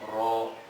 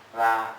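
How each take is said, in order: First: The r sound is thick and heavy. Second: The r sound is thin and light. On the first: "ro itu kan tebal" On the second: "ra tipis"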